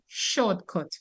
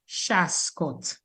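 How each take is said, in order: First: It has a standard English pronunciation. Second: It has a Dominican Creole pronunciation, 'shascot'. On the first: This is the original English word. "they could not say shortcut" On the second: This is the local Creole form of the word. "we Dominicans, we fix it to Shascot"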